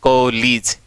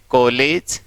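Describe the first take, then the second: First: कॉलेज said kolij, the second vowel a short ee. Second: कॉलेज said koledge, with a clear e; the wrong कॉलेज, ending on ej. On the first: Teacher showing the class कॉलेज with ee, not e. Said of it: "ए नहीं बल्कि ई है". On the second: Teacher showing the class the wrong कॉलेज with e. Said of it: "नहीं कॉलेज". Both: Shown as a demonstration.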